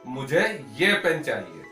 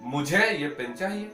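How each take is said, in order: First: The stress is on the word ये. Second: The stress is on the word मुझे. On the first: It answers which pen is wanted. "किसी ने पूछा भाई आपको कौन सा पेन चाहिए" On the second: It answers who wants the pen. "किसी ने पूछा कि भाई किसे ये पेन चाहिए"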